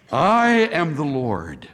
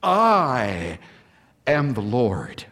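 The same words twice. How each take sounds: First: "I" leads, falling close on "Lord"; stress on I. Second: "I", a held pause, then a low, weighty "am the Lord"; pause after I, stress on am. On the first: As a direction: lean on the word "I". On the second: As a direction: let "I" hang, then land hard on "am". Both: Shown as a demonstration. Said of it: "I've underlined that".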